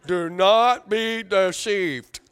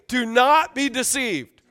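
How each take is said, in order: First: Slow, drawn-out robot voice on "Do not be deceived"; mock a droning robot, every word stretched; robot imitation. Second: "Do not be deceived" loud and measured, higher pitched; emphatic modelling. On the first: Preacher teasing his congregation's chanted response, mock robot voice. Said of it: "y'all sound like robots". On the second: Shown as a demonstration. Preacher leading congregation to repeat "Do not be deceived", emphatic. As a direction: stress NOT in "Do not be deceived", slowly. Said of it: "Everybody look at me and say".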